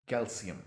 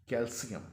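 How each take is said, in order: Both takes have the same delivery.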